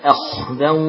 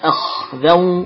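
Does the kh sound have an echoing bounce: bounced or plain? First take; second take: plain; bounced. First: The kh sound is plain with no bounce. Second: The kh sound has an echoing bounce. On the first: The speaker calls it right. "Jangan qalqalah khanya" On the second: The speaker calls it wrong. "Jangan sampai akhdan"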